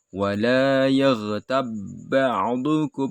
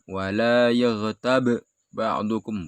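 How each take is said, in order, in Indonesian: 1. Dua bunyi b itu menyatu menjadi satu. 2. Dua bunyi b itu dilafalkan terpisah. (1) "ini langsung diidghamkan, dimasukkan"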